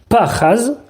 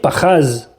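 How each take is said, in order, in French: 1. L'accent tonique est sur la première syllabe. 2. L'accent tonique est sur la deuxième syllabe. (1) "avec la première syllabe qui a l'accent tonique" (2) "l'accent tonique aurait été sur la deuxième syllabe"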